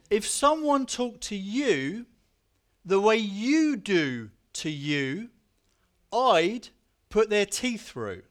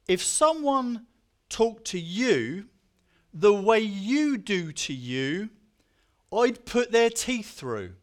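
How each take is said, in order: First: It is read in a Bristolian accent. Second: It is read in the speaker's ordinary accent.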